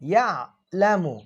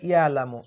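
First: The 'ain sound comes from the throat. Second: The 'ain sound is left out. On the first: The speaker calls it right. "ভিতর থেকে বলবেন" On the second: The speaker calls it wrong. "অনেকে বলে ইয়ালামু"

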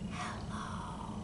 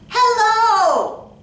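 First: It is said very quietly. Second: It is said very loudly.

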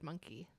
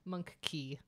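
First: The two syllables run together as one word. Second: The two syllables are separated as two words. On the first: It sounds like the animal. The speaker calls it wrong. "otherwise it sounds like monkey" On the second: It names a key suited to monks. The speaker calls it right. "You have to separate those words"

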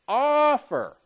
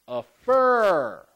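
First: The stress falls on the first syllable. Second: The stress falls on the second syllable. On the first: The speaker calls it right. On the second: The speaker calls it wrong.

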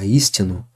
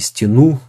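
First: The stress is on the first syllable. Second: The stress is on the last syllable. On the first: The speaker calls it right. "Здесь ударение прямо на первый слог" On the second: The speaker calls it wrong. "Не истину же мы говорим"

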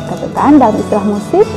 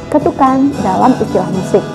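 The two takes are said the same way.

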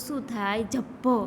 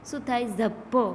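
The two takes are said the same way.

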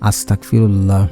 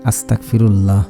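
First: The middle consonant sounds like a hard k. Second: The middle consonant sounds like a hard k.

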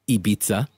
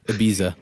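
First: It is said like a nightlife industry insider. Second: It is said in a puzzled American accent. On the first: The speaker works in nightlife. "The nightlife professional" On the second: The speaker is a confused American. "the puzzled American"

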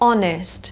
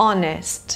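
The two takes are said the same way.

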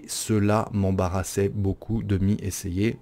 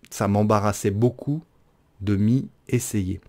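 First: It begins with the full two-syllable form. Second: It begins with the short one-syllable form. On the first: The speaker calls it right. "J'aurais dû le prononcer euh, de cette manière-là" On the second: The speaker calls it wrong. "J'ai dit ça au lieu de cela"

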